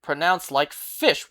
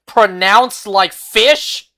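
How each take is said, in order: First: Said in the usual way. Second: Loud, slow, drawn-out disbelief; incredulous. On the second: Real, not acted. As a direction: repeat it louder, as a baffled question. Repeats it in disbelief after "What?.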